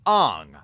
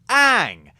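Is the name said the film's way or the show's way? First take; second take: film's way; show's way. First: The name is said the way the film says it. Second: The name is said the way the show says it. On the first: This is how the movie pronounces the name. The speaker calls it wrong. "They call him Aang" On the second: This is how the original show pronounces the name. The speaker calls it right. "instead of Aang"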